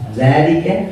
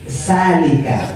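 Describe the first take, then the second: First: It begins with a 'th' sound as in 'this'. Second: It begins with a plain 's' sound. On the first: The speaker calls it right. "Zal zal" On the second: The speaker calls it wrong. "kalau di Bugis dzalika menjadi salika"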